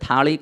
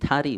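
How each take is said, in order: First: The middle consonant is a retroflex L sound. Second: The middle consonant is an R sound. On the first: This is how the speaker's own region says it. "આપણે થાળી કહીએ" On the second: This is how people from another region say it. "એ અળ ન બોલે, એ ર બોલે"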